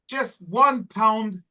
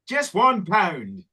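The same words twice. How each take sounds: First: It is said in the speaker's usual accent. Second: It is said in an Irish accent.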